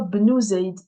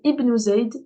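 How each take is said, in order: First: The word begins directly with b, no vowel. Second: The word begins with an audible vowel before b. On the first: Another word comes before it. "Comme s'il n'était pas là" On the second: The word starts the phrase. "le elif, il débute la phrase... je le prononce"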